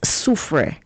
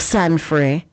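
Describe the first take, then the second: First: The name is said with the local pronunciation. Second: The name is said with another outsider's mispronunciation. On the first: The speaker calls it right. "it's Soufre" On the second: The speaker calls it wrong. "or Sanfre"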